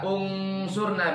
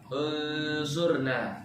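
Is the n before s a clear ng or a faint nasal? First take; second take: clear ng; faint nasal. First: The n is a full, clear ng sound. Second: The n is a faint nasal blending into s. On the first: The speaker calls it wrong. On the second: The speaker calls it right.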